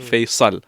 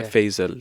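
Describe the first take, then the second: First: The middle consonant is an emphatic s sound. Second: The middle consonant is a buzzing z sound. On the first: The speaker calls it right. "it's fa, ya, sad" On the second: The speaker calls it wrong. "everyone pronounces it with a Z"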